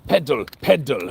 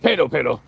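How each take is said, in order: First: The words are said with careful, clear enunciation. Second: The words are said loosely, without clear enunciation. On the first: The speaker calls it right. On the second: The speaker calls it wrong.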